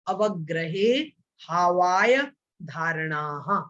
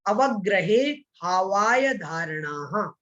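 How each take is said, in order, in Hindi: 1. शब्द छोटे-छोटे विरामों से अलग किए गए हैं। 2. शब्द बिना रुके एक साथ जुड़े हुए बोले गए हैं।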